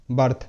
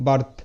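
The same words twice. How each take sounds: The two takes are said the same way.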